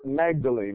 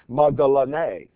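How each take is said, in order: First: The name is said the familiar English way. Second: The name is said the original Greek way. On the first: The speaker calls it wrong. "we call her Magdalene, it's easy for us to say it that way" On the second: The speaker calls it right. "the real pronunciation of her name is Magdalene"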